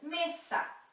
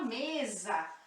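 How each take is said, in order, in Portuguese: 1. A consoante do meio é um s sibilante. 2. A consoante do meio é um z com zumbido. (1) "sempre S" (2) "como se fosse um Z aqui"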